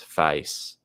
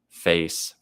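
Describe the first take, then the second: First: It is said with an Australian accent. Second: It is said with an American accent. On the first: "American versus Australian comparison" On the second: "American versus Australian comparison"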